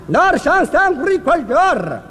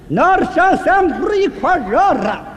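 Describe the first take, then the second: First: The phrase is spoken more slowly. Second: The phrase is spoken very slowly. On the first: "慢点" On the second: "再慢点"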